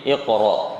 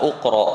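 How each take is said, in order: First: The word begins with an i vowel. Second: The word begins with an u vowel. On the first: The speaker calls it right. "tapi iqra" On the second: The speaker calls it wrong. "maka kita bukan baca uqra"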